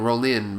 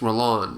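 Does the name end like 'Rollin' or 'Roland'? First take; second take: Rollin; Roland. First: The name ends in a short 'in' sound. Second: The name ends in an 'and' sound. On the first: This is the speaker's habitual pronunciation. The speaker calls it wrong. "I always say his name Rollin" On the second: This is what the speaker believes is correct. The speaker calls it right. "I know I think it's Roland"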